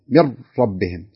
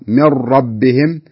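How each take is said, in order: First: The r has no trill, sounding close to l. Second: The r has a light, brief trill. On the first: The speaker calls it wrong. "لو فرض أني ما كررت" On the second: The speaker calls it right. "شوف لاحظ من ربهم"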